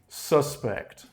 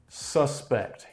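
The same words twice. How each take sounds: No difference in how they are said.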